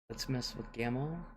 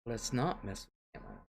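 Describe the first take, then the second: First: Soft, lilting "Let's mess with Gamma", rising at the end; imagined grandkids' suggestion. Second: Soft "Let's not mess with Gamma", weight on "not"; imagined grandkids' second thoughts. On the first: Grandma imagines her grandkids plotting, soft rising tune. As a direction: quote the kids softly, lifting "Gamma" like a proposal. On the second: Grandma imagines grandkids thinking better of it, soft falling tune. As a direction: quote the kids backing off, stressing "not" and falling away. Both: Retold or imitated.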